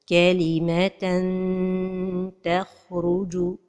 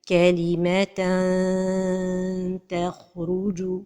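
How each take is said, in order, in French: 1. La langue touche le palais, donnant un n clair. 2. La langue reste loin, comme une voyelle longue. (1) "toucher le palais supérieur avec le bout de la langue" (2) "trop éloigner la langue du palais"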